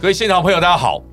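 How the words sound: It is said brightly and cheerfully.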